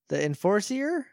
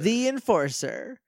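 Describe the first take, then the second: First: The long E sound is inside 'Enforcer'. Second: The long E sound is on 'the'. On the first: The speaker calls it wrong. "Long E sound" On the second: The speaker calls it right. "the long E is in the, not Enforcer"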